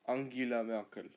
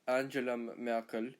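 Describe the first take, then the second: First: Angela is said with German pronunciation. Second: Angela is said with English pronunciation. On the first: The speaker calls it right. "in German is Angela" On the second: The speaker calls it wrong. "It's not Angela Merkel"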